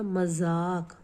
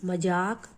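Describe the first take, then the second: First: The middle consonant is a z sound. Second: The middle consonant is a plain j sound.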